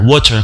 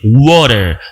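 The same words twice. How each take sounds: First: The t is a clear t sound. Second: The t is tapped like a quick r.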